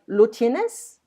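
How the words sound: The voice rises at the end.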